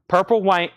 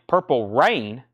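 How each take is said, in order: First: "Purple Wa-" misread with a W sound for the R, cut off mid-word; "Purple Wa-" slipping into a W, then stopping short; misread slip. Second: "Purple Rain" with a clear R at the start of "Rain"; "Purple Rain" fixed, R sounded plainly; corrected reading. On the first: Auction host misreads a record title, slip of the tongue. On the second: Auction host corrects his misread title, plain correction. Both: Real, not acted. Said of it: "that has an R in it, not a W".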